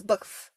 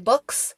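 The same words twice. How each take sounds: First: "books" with the tongue on the front of the palate; imitated speech quirk. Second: Said in the usual way. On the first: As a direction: say "books" softer, k sound pushed just behind the teeth. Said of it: "It's her k sound". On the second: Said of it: "instead of saying books".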